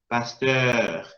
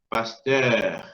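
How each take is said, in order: First: The second vowel is a rounded French eu. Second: The same.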